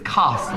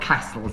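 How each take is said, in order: First: The word is said with a standard southern accent. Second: The word is said with a Liverpool accent. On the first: The speaker calls it right. "it's castles" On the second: The speaker calls it wrong. "it's not castles"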